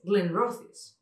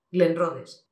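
First: GLENROTHES as "glen-ROTH-is", voiceless th; slow "glen-ROTH-is", th as in "thin"; correct pronunciation. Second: GLENROTHES with th as in "the"; louder "glen-RO-dhes"; beginner's mispronunciation. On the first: Shown as a demonstration. Teacher corrects it, "glen-ROTH-is". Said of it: "Pero no, es". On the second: Retold or imitated. Showing the schoolbook error, "glen-RO-dhes". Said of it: "te enseñan en inglés T H E".

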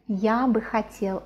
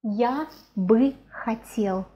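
First: Said in the usual way. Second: Slow, drawn-out "я бы хотел"; slow demonstration. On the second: Shown as a demonstration. Teacher modelling a Russian phrase for learners, slowly.

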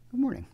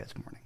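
First: High, hammed-up Aussie twang on good morning; a jokey, overdone Australian greeting; bad Australian accent. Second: Said in the usual way. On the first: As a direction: put on a terrible Australian accent. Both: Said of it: "It's my terrible Australian accent".

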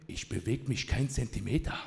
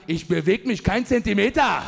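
First: Low, quiet tough-cop mock threat; hammed-up stern officer; GI Joe policeman. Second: Mock-heroic shouted stand; triumphant defiance. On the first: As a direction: stand your ground like a western gangster. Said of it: "so ein bisschen in seinem G I Joe-Modus". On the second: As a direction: hurl the cop's line back at him. Throws the cop's line back.

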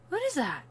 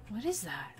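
First: High startled question; surprised question. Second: Soft puzzled mutter to self; muttered question. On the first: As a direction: ask it suddenly, startled. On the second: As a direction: mumble it, half to yourself. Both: Real, not acted. Puzzled repeat of same question.

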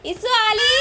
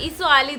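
First: High calling voice. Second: Said in the usual way. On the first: Real, not acted. Mother calling the others for her crying baby, high call. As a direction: call them over in a raised pitch.

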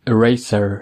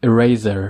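First: Eraser said e-RAY-ser with a hissed s; eraser with s sound. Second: Eraser said e-RAY-zer with a buzzing z; eraser with z sound. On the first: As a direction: Eraser with a clear s in the middle. (Eraser با صدای س) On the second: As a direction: eraser with a voiced z in the middle. (eraser با صدای ز) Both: Shown as a demonstration.

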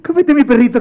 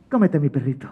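First: High, insistent coaxing; pleading offer. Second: Soft drop out of the wail; sly offer. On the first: Mateo pressing his dog on the monster, high pleading. Same offer repeated, higher. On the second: Mateo giving up his dog, soft and sly. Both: Acted.

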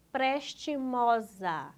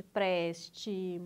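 First: Said in the usual way. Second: "prestimosa" broken into four evenly spaced syllables. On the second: Shown as a demonstration. Teacher showing the correct division, syllable by syllable. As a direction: sound out "prestimosa" one syllable at a time. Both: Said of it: "separe as sílabas".

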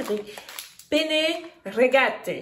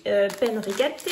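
First: Slow, careful Italian accent. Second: Said in the usual way. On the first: Shown as a demonstration. Showing her viewers her Italian accent on penne rigate. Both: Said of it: "Comment est mon accent?".

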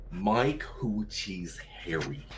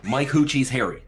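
First: Softer, slow, stretched-out words; slow drawn-out reading. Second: Higher, louder, words run together; quick run-together reading. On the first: Trying the gag phrase once more, slow drawn-out reading. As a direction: draw each word out slowly. Slow take after quick one. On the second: Trying a gag phrase on friends, quick run-together reading. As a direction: say it all in one quick burst. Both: Pretend.

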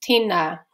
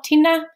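First: Tēnā with both vowels held long; carefully pronounced tēnā, long-vowelled; tēnā with macrons. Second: Tēnā with both vowels cut short, pitched higher; mispronounced tēnā, short "e" and short "a"; tēnā without macrons. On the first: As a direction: draw out the "ē" and "ā" in tēnā. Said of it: "the tohu tō on tēnā". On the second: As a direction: say tēnā quickly, ignoring the long vowels. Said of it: "making sure we pronounce the macrons". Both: Shown as a demonstration.

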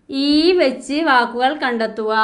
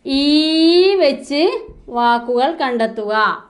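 First: Said in the usual way. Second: "ഈ" stressed and drawn out a little; stress on the letter. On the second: Shown as a demonstration. Teacher to pupils, stressing "ഈ" in the instruction. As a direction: lean on "ഈ" so the letter stands out.

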